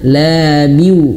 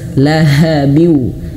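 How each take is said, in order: First: The h sound is dropped. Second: The h sound is clearly pronounced. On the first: The speaker calls it wrong. "jangan labiu" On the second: The speaker calls it right. "maka harus jelas lahabiu"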